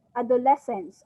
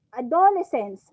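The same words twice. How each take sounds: First: "adolescence" stressed on LES; standard stress. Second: "adolescence" with DO punched louder; stress on DO. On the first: Teacher giving the class an example word, stress on LES in "adolescence". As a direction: put the main beat on the third syllable, a-do-LES-cence. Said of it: "when you Google it". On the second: Teacher quoting how some students have heard it, stress on DO in "adolescence". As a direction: shift the beat to the second syllable, a-DO-lescence. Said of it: "minsan sa do, do, sa do nag-aano". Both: Shown as a demonstration.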